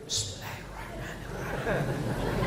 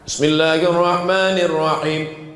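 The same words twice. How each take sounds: First: It is recited quietly, almost silently. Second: It is recited aloud, clearly voiced.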